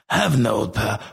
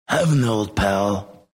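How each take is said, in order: First: The voice is rough and smoky. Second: The voice is plain, without extra rasp. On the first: The speaker calls it right. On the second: The speaker calls it wrong.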